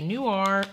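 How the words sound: It is said with an American pronunciation. This is how Americans say it. "I feel like Americans say noir"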